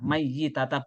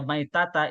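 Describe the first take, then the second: First: The y sound is doubled and held longer. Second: The y sound is short and single. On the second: "kalau dibaca maitata"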